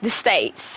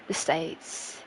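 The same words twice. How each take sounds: First: Said in the usual way. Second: "The States" breathed out in a whisper; whispered rehearsal. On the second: Shown as a demonstration. Streamer quietly trying out a phrase, whispered. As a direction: whisper "The States" to yourself, testing it. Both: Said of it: "Should I just say the States?".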